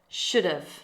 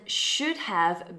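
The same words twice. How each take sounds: First: The words run together into one reduced word. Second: Both words are said fully and separately.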